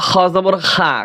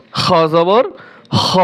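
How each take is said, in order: First: "খা" with an open aa instead of the dark o; mistaken kha pronunciation. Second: Full-mouthed rounded "kho" on the last syllable "হ"; correct kha sound. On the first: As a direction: end "খ জবর খা" on a thin, open "khaa". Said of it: "ভুল করে এখানে অনেকেই পড়ে". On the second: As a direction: end "খ জবর হ" on a throaty kh with a dark o-like vowel. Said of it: "হর উচ্চারণ". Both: Shown as a demonstration.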